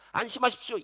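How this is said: It is said in an offhand, uncaring tone. The speaker does not really understand their hardship. The speaker calls it wrong. "그냥 아유, 나는 잘 모르겠는데"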